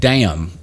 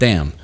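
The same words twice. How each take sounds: First: It is said with an Appalachian accent. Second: It is said with a standard accent. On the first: "accentuating the Appalachian accent" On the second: "instead of"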